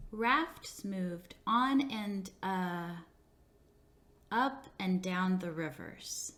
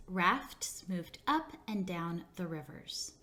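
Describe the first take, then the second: First: Slow, stumbling read with a filler uh; halting student reading. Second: Model sentence, slow. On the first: Teacher imitating a student who stumbles, slowly and haltingly. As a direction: read it like a child who slips, stalls, then fixes it. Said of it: "The student reads". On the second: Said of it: "Let's practice with the sentence". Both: Shown as a demonstration.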